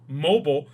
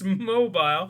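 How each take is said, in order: First: It is said with an American pronunciation. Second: It is said with a non-American pronunciation.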